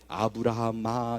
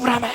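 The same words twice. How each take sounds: First: It is called out slowly and unhurriedly. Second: It is called out quickly and urgently.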